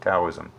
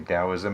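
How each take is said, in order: First: The word begins with a T sound. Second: The word begins with a D sound. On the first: "if I read a book that uses the letter T, I start saying Taoism" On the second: "if I'm reading a book that uses the word, the letter D, I say Taoism"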